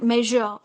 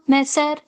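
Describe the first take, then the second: First: The middle consonant is a buzzing zh sound. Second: The middle consonant is a hissing s sound. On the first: The speaker calls it right. "j sound" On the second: The speaker calls it wrong. "Sa, ... It's absolutely wrong"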